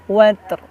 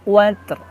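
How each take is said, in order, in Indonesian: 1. Kata itu berakhir dengan bunyi r yang terdengar. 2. Kata itu berakhir dengan bunyi r yang terdengar.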